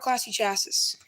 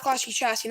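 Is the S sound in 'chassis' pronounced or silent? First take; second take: pronounced; silent. First: The S in chassis is pronounced. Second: The S in chassis is silent. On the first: The speaker calls it wrong. "not Classy Chassis" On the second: The speaker calls it right. "it's Classy Chassis because the S is silent in chassis"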